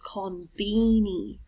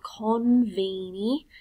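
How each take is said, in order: First: The middle consonant is a B sound. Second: The middle consonant is a V sound. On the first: This is how Japanese speakers say it. "it's konbini. That's the closest as they can get to it" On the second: This is how English speakers would say it. "Japanese people do not have a V in their alphabet. So instead of saying konbini"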